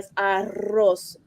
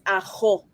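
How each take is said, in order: First: The R is trilled with the tongue tip. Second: The R is made at the back of the throat. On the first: "When it's double R, it's arroz" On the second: "But my aunt says ajo"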